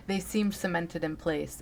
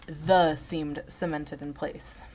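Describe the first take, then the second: First: Said in the usual way. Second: Slow, careful "The seemed cemented in place."; reading the typo. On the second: Shown as a demonstration. Correcting his misreading, slowly reads the typo "The". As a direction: spell out the typo "The" slowly and deliberately. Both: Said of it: "Oh, sorry, he wrote".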